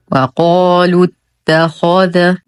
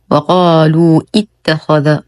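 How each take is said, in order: First: وقالوا اتخذ run together as "waqaalut-takhadha"; correct joining. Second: وقالوا اتخذ split as "waqaaluu ittakhadha"; wrongly voiced hamza. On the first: Teacher giving the correct form, وقالوا اتخذ joined on doubled ta. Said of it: "والصواب". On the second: Teacher showing a mistake, hamza pronounced in وقالوا اتخذ. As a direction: sound an extra "i" opening اتخذ after a long وقالوا. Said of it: "وهذا خطأ". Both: Shown as a demonstration.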